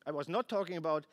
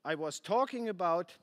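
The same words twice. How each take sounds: First: NOT held and hit hard, quick; I was NOT talking about, stressed. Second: Said in the usual way. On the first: Shown as a demonstration. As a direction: lean on the word not to correct yourself.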